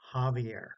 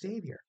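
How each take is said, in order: First: The name starts with an H-like sound. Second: The name starts without an H-like sound. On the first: The speaker calls it right. "It's Javier" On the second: The speaker calls it wrong. "Some people try to pronounce it Xavier"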